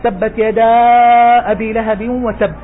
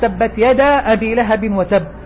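First: The vowel before 'abi' is held long. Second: The vowel before 'abi' is held short. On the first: "ثم المد" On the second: "فيه للقراء قصر وتوسط وطول"

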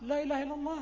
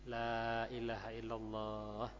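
First: It is said hurriedly and tensely. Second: It is said slowly and calmly. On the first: It adds to the dying person's confusion. The speaker calls it wrong. "Jangan Anda tambah bingung tegang" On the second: It soothes the dying person. The speaker calls it right. "pelan-pelan saja, tenang"

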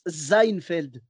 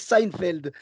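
First: The name begins with a Z sound. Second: The name begins with an S sound. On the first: "il y en a qui le prononcent comme si c'était un Z" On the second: "tu le prononces avec le S parce que ça s'écrit avec un S"

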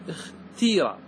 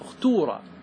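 First: The vowel after the t is a long i. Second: The vowel after the t is a long u. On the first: "بالكسر اختيرة، تكسر همزة الوصل وتكسر التاء" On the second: "هذه بالضم"

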